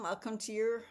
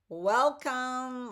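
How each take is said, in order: First: Said in the usual way. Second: Loud, high, drawn-out welcome; bright welcome. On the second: Real, not acted. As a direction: greet them with a big lift. Cheerful greeting to viewers.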